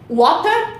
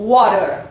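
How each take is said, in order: First: "Water" with crisp T and no final R; slow British "Water"; British pronunciation. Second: "water" with tapped T and final R; slow American "water"; American pronunciation. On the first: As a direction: say "Water" as WAW-tuh, British style. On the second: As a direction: say "water" as WAH-der, American style. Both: Shown as a demonstration. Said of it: "Pronúncias britânicas e americanas".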